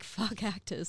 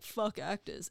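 First: The phrase sounds flirty and eager. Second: The phrase sounds fed up and dismissive. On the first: The speaker is attracted to actors. "the next time I see a hot actor, I'm like" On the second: The speaker wants nothing to do with actors. "I've dated enough actors to be like"

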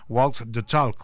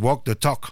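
First: It is said with a British accent. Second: It is said with an American accent.

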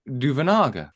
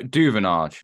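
First: The surname is said the South African way. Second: The surname is said the familiar English way. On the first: This is how local commentators pronounce it. "from watching the game with the South African commentators" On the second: This is the pronunciation the speakers have long used. "you know"

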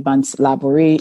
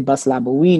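First: The name is said with an English pronunciation. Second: The name is said with a French Creole pronunciation.

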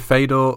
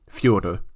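First: The name is said the anglicized way. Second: The name is said the Russian way. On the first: "Are we going Fedor?" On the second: "which is the correct way"

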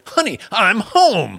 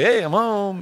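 First: It is said in an overacted, dramatic way. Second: It is said in a plain, natural way.

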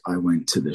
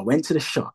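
First: It is said flatly, with little energy. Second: It is said with lively, passionate energy. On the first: The teller does not care about the story. The speaker calls it wrong. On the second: The teller believes in the story. The speaker calls it right.

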